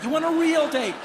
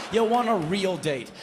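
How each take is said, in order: First: REAL high and louder; stressed loud. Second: Said in the usual way. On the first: Shown as a demonstration. Guy yearning for a real date, REAL louder and higher. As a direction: punch real.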